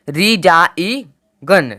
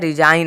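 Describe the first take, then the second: First: A hard g sound is pronounced before the n. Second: No g sound is heard before the n. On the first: The speaker calls it wrong. "ना कि रिजाई गन, रिजाई गन नहीं आया" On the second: The speaker calls it right. "रिजाइन आया"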